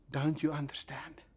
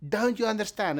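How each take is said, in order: First: Whispered. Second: Said in the usual way. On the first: Shown as a demonstration. Jesus asking in a quiet time, "Don't you understand" whispered. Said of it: "in times when he is quiet". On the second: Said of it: "But Jesus says".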